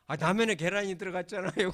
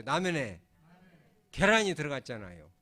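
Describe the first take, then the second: First: A loud mock of someone crying over egg in ramen, 라면에 pressed hardest; lightly acted crying churchgoer, louder; tearful gratitude. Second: Loud call-and-response, 라면에 and 계란이 spaced out with a pause between; lead the repeat. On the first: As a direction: play the weeper, loud and half-hearted. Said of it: "그러면서 울고". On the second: Shown as a demonstration. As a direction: read it out loud for the church to repeat. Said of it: "우리 한번 따라서 하죠".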